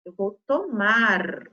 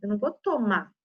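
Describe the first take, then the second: First: "tomar" drawn out slowly to a strong final R; final R sounded. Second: "tomar" said as "tomá", no R at the end; dropped final R. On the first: Teacher correcting pupils, "tomar" with the R fully sounded. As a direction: stretch "tomar" and hold its last R. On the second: Teacher showing pupils the mistake, "tomar" with the R eaten. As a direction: swallow the R of "tomar", ending on the vowel. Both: Shown as a demonstration. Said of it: "comendo essa letrinha".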